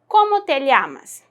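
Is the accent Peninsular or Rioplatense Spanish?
Peninsular. It has a Peninsular Spanish accent.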